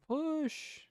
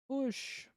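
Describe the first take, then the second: Both takes have the same delivery.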